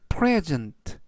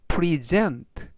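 First: The stress is on the first syllable. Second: The stress is on the second syllable. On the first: It is the noun meaning a gift. "여기에서는 앞부분에 강세가 있어서 present" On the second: It is the verb meaning to present or show. "뒤에 있는 E에 강세를 붙이면 present, 동사가 돼서"

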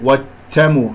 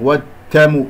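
First: The d sound is weak, between d and t. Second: The d sound is weak, between d and t.

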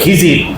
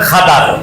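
First: The name is said as Khijir, Bengali style. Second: The name is said as Khadar, Arabic style. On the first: "খিজির হলো বাঙালি উচ্চারণ" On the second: "আসল আরবি উচ্চারণ খাদার"

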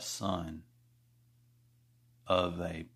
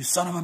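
First: The phrase is drawn out slowly with pauses. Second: The phrase is said quickly in one go. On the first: A deliberate insult meant to anger more. The speaker calls it right. "the proper way to say son of a bee is to do it slowly" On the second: A routine insult with less impact. The speaker calls it wrong. "the regular way with speed and less caress"

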